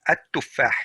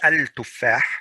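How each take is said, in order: First: The l merges into a doubled t sound. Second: The l is clearly pronounced before the t. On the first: The speaker calls it right. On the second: The speaker calls it wrong.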